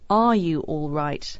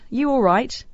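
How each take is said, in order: First: The word 'are' is said at the start. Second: The word 'are' is dropped at the start. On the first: "the most correct way of saying this would be" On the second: "it often just becomes"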